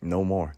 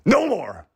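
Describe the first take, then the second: First: Said in the usual way. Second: "No more" yelled much higher and louder; sudden preacher shout. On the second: Shown as a demonstration. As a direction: burst out with it.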